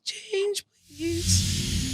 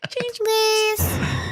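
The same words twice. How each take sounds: First: The imitated child voice sounds harsh and scary. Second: The imitated child voice sounds sweet and cute. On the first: The speaker calls it wrong. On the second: The speaker calls it right.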